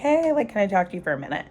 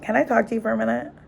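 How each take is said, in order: First: It sounds open, warm and friendly. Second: It sounds cold, tense and hostile.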